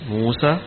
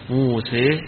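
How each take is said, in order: First: The final vowel is an open 'a' sound. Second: The final vowel is bent fully toward 'e'. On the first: "قراءة الفتح موسى" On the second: "قراءة الإمالة موسى"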